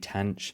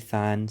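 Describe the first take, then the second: First: The word begins with a 't' sound. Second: The word begins with a 'th' sound. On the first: "some people say tanh" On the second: "I say than"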